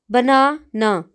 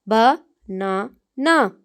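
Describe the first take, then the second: First: Said in the usual way. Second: banana drawn out very slowly, ba-na-na; stretched syllables. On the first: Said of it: "तीन syllables हैं". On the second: Shown as a demonstration. Teacher drawing out a word to count its syllables. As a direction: stretch banana into three slow beats. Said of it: "इसके अंदर तीन syllables हैं".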